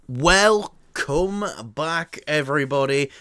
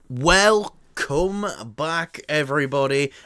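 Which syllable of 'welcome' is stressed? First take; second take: come; come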